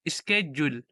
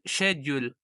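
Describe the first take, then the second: First: It is said in an American pronunciation. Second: It is said in a British pronunciation. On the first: "Sa U S naman is" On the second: "Sa U K, ang schedule nila is"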